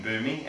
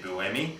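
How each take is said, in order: First: The name is said like 'boomy'. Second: The name is said like 'boo-emi'. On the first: The speaker calls it wrong. "we were saying Boomy" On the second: The speaker calls it right. "it's actually Buemi"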